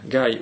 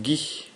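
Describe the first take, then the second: First: The name is said with an English pronunciation. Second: The name is said with a French pronunciation. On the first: The speaker calls it wrong. "j'ai dit Gaï parce que je, je, dernièrement je travaille beaucoup en anglais" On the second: The speaker calls it right. "mais c'est Guy"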